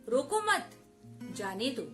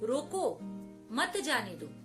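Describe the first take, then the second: First: There is a pause right after 'mat'. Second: There is a pause right after 'roko'.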